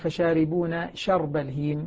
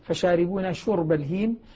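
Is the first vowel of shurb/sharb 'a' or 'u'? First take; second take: a; u. First: The first consonant of sharb takes an 'a' vowel. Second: The first consonant of shurb takes a 'u' vowel. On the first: "بفتح الشين" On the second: "يقرؤها بالضم"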